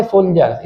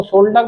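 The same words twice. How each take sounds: First: सोल्जर्स with a j sound in the middle; correct pronunciation. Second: सोल्डर with a d sound in place of j; misreading of soldier. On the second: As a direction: say सोल्डर as "sol-dar". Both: Shown as a demonstration. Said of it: "इसको सोल्डर मत पढ़िएगा".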